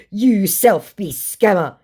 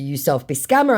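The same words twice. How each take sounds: First: Slow, raised, louder impression; mock accusing scammer. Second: Said in the usual way. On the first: Scammer throwing the accusation back, mock indignant. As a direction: draw out the accusation in a put-on voice.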